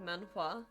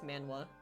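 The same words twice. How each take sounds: First: The H sound is pronounced. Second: The H sound is left out. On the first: "Do I pronounce the H in that? Like manhwa" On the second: "if I don't pronounce the H, it kind of goes manhwa"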